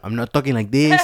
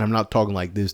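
First: Imitated Black American accent; mock Black accent. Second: Imitated Mexican American accent; mock Mexican accent. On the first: Showing the accent people expect from San Jose, mock Black accent. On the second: Showing the other accent people expect from San Jose, mock Mexican accent. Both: Shown as a demonstration. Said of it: "I don't sound black or Mexican".

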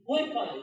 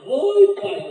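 First: A mildly raised, caught-off-guard oi, pai; a daughter surprised to see her father at the door; first oi, pai only lightly lifted; startled greeting. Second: A much higher and louder oi, pai; a daughter jolted awake by her father at the door; second oi, pai yelped in surprise; startled greeting. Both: Retold or imitated.

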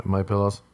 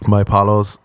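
First: Said in the usual way. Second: "Pillows" said as "PAH-lows"; teasing mispronunciation. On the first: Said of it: "as I like to call them". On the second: Shown as a demonstration. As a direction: open the first vowel of "Pillows" to a broad "ah". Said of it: "as I like to call them, just to annoy people".

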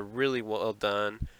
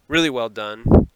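First: Words slightly fumbled out. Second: "Really well done" said louder and quicker; corrected repeat. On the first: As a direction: let "really well done" tumble out indistinctly. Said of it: "fumbled out of my mouth". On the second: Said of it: "if I said that right the first time". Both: Real, not acted.

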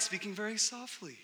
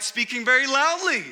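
First: Eased off from a shout; very soft. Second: Raised voice, louder and higher. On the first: Preacher showing how the couple fought, softer. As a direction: pull back to show a softer fight. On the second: Preacher showing how the couple fought, very loud. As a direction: belt it out to show a loud fight. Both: Shown as a demonstration.

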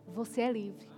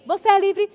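First: Much softer and lower; quiet, lower reassurance to each listener; hushed declaration. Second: Loud declaration of freedom; louder, ringing proclamation; proclaiming. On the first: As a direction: drop to an intimate near-hush. Preacher proclaiming freedom. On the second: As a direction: shout it to the congregation. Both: Acted.

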